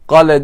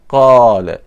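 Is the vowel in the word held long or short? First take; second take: short; long. First: The vowel is held only briefly. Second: The vowel is held about twice as long. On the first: The speaker calls it wrong. "gale değil de" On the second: The speaker calls it right. "Farz edin o 1 saniye ise bu 2 saniye oluyor"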